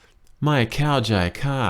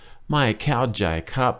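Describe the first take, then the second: First: ไม่เข้าใจค่ะ ending on the polite female particle ค่ะ; Thai female polite. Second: ไม่เข้าใจครับ ending on the polite male particle ครับ; Thai male polite. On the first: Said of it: "if you're a female". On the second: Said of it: "if you're a guy". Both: Shown as a demonstration.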